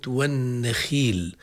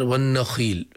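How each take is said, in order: First: والنخيل said slowly, with the خ kept at the lightest level of emphasis; والنخيل with a barely emphatic خ; lightly heavy خ. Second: والنخيل with the خ raised and made too emphatic; imitating a student's overdone خ in والنخيل; over-heavy خ. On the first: Shown as a demonstration. Teacher slowly modelling والنخيل. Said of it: "أو في كلمة". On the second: Teacher imitating a student's wrong reading. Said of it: "علاها شوي، لا، هذه التعلية هنا غير مناسبة".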